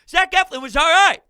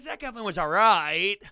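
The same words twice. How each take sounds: First: It is said in an approving, positive tone. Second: It is said in a lukewarm, unimpressed tone. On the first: The pitcher did well. "you could say it as like" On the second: The pitcher was only mediocre. "I'm saying it more like, eh"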